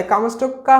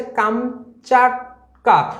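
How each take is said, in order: First: কামচটকা read with no long aa in the middle; book reading of কামচটকা. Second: কামচাটকা slowly in syllables, kam-chat-ka; slow, careful কামচাটকা, long aa in the second syllable; correct pronunciation. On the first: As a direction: say কামচটকা as spelt, with an o-sound in the middle. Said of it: "এর প্রকৃত উচ্চারণ হচ্ছে কামচাটকা". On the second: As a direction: demonstrate কামচাটকা with a clear "chaat" in the middle. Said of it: "এর প্রকৃত উচ্চারণ হচ্ছে". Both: Shown as a demonstration.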